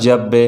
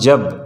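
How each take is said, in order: First: The final b ends with an echoing bounce. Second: The final b stops flat without a bounce. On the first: The speaker calls it right. "यहाँ पर कलकला हम लोगों को करना ही होगा" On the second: The speaker calls it wrong. "ऐसे नहीं पढ़ेंगे"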